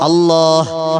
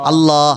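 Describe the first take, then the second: First: The word ends with an audible h sound. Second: The word ends on a plain long a. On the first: The speaker calls it right. "ഈ ഹാ നമ്മുടെ കൽബിൽ വരണം" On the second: The speaker calls it wrong. "നമ്മൾ പറയുന്ന ഉച്ചാരണം തെറ്റാണ്"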